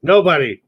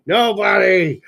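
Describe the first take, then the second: First: Said in the usual way. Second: Dramatic shout. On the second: Pretend. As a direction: belt it out like a movie line. Dirty Dancing line, echoed dramatically.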